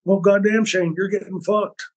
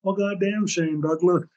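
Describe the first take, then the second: First: Imitating Terry. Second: A touch of Terry's drawn-out, higher exclamation; half-amused mock of Terry swearing; imitating Terry. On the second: Friend Terry reacting to the news, lightly voiced exclamation. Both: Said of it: "He goes".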